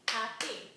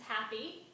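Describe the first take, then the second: First: "happy" broken into two clear beats; split into syllables. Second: Said in the usual way. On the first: Shown as a demonstration. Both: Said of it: "two syllables long".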